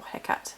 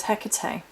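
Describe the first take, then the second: First: Hecate said in two syllables, as HEK-at; two-syllable pronunciation. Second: Hecate said in three syllables, ending "-tay"; three-syllable pronunciation. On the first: Giving viewers the other pronunciation, Hecate as HEK-at. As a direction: offer Hecate as HEK-at, without the "-ay" ending. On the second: Witch naming the goddess for viewers, Hecate as HEK-uh-tay. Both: Shown as a demonstration. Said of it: "depending on how you pronounce it".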